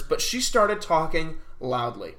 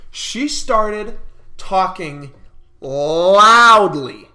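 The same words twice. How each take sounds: First: Said in the usual way. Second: Slow, then LOUDLY blasted out; drawn-out emphasis. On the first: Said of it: "Sorry for you headphone users". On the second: Shown as a demonstration. Vlogger showing how loud the girl was, slow then shouted.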